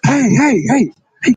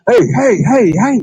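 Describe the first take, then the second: First: It is said in a changed voice. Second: It is said in his normal voice.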